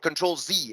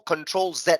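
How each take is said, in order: First: The letter is said in an American way. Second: The letter is said in a non-American way.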